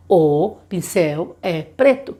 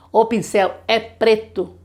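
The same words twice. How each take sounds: First: Put-on as the child would say it; child voiced slowly. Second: Slow, clear sentence; slow example. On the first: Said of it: "ele consegue saber que". (voz de criança, devagar) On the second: Shown as a demonstration. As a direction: model the sentence for a child. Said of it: "slow example sentence". (frase lenta de exemplo)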